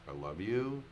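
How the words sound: It is said as a question, doubtfully. "as a question"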